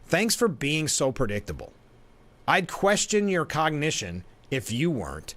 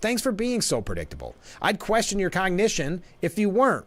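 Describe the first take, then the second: First: It is read in a sarcastic, mocking tone. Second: It is read in a sincere, friendly tone. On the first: The writer is insulting the host. The speaker calls it wrong. "This is the first way. This is how I read it" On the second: The writer is complimenting the host. The speaker calls it right. "I like it better this way"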